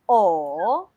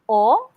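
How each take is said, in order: First: The pitch dips, then rises, more prolonged. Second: The pitch rises quickly.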